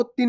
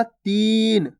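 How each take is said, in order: First: Short i in तीन, like तिन; wrongly short vowel. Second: Long drawn ee in तीन; stretched long ee. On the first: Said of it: "आपको तीन नहीं पढ़ना". (तीन को छोटी इ से, बिना खींचे) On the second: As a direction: hold the ee of तीन before the n. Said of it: "बड़ी ई की मात्रा को खींच के पढ़ना है". (तीन में ई खींचकर) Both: Shown as a demonstration.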